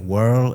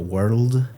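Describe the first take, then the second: First: The word ends without a final D sound. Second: The word ends with a clear D sound. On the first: The speaker calls it wrong. "sometimes don't pronounce the final consonant" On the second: The speaker calls it right. "instead of world"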